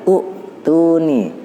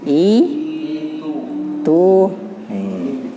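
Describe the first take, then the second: First: The word begins with an 'u' vowel. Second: The word begins with an 'i' vowel. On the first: The speaker calls it wrong. "bukan u lagi" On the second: The speaker calls it right. "dibacanya i tu nih"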